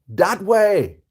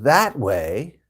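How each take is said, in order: First: The first word begins with a hard D sound. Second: The first word begins with a soft TH sound. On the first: "You said it more like a D" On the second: "my way, with a T H"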